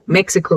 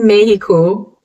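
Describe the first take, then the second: First: It is said the English way. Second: It is said the Spanish way. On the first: The speaker calls it wrong. "if you're a native English speaker like me, would go" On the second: The speaker calls it right. "It's actually Mexico in Spanish"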